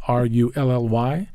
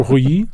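First: R U L L Y read letter by letter; spelling R U L L Y for the listener; spelled out. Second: Rouilly said the French way, roo-YEE; Rouilly in a French pronunciation; French name said. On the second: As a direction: give Rouilly its French sound before spelling it. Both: Shown as a demonstration.

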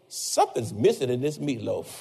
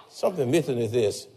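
First: Lower, softer muttered complaint; low sulky husband picking at dinner; grumbling husband. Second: Low, soft repeated gripe; a lower, quieter sulky husband; grumbling husband. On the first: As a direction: grumble it under your breath at the plate. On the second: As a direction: mutter the complaint once more. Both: Retold or imitated. Husband grumbling at wife's cooking.

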